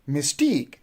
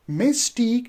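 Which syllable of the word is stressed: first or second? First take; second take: second; first. First: The stress is on the second syllable. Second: The stress is on the first syllable. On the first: The speaker calls it right. "you will say mystique" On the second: The speaker calls it wrong. "you are putting the stress on the first syllable, which is wrong"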